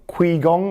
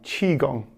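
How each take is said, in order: First: The word begins with a 'k' sound. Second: The word begins with a 'ch' sound. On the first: The speaker calls it wrong. "most people get it wrong because of the way it's uh, kind of spelt with a Q and an I" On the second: The speaker calls it right. "it's like C H I"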